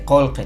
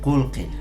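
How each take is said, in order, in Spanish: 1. Las vocales suenan como o y e. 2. Las vocales suenan como u e i. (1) "sí, dice colque" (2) "no dice colque"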